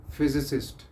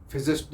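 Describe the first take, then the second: First: फिजिसिस्ट with the middle si said clearly; correct pronunciation. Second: फिजिस्ट said short, without the middle si; imitating the short फिजिस्ट mistake; wrong pronunciation demo. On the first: Teacher gives students the right form. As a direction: model फिजिसिस्ट. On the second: Teacher shows students the dropped syllable. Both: Shown as a demonstration. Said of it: "फिजिस्ट नहीं होता".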